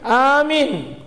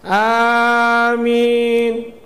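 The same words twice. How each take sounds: First: One of the vowels is cut short. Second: Both vowels are held long. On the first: The speaker calls it wrong. "bukan amin" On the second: The speaker calls it right. "Yang benar A-nya panjang, min-nya panjang"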